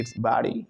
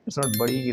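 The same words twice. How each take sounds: First: "body" as "bah-dee"; American AH sound. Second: "body" with a rounded O, "baw-dee"; wrong rounded O. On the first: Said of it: "आ का sound देते हैं American". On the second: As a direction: show "body" in the non-American way, rounded vowel. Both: Shown as a demonstration.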